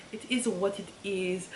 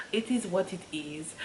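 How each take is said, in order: Both takes have the same delivery.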